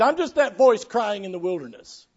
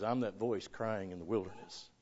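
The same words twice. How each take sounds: First: Raised, louder preacher's quotation; emphatic quote. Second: Low, very soft understated quotation; humble quote. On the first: Preacher quoting John's answer about himself, emphatic. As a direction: declare it with raised pitch. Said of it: "He said". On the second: Preacher quoting John refusing to brag, humble and hushed. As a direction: drop right down, modest and quiet. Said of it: "He didn't brag and say". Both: Retold or imitated.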